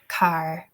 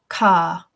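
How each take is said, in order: First: The r at the end is clearly sounded. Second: The r at the end is silent. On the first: "I say car" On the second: "so ah, ka"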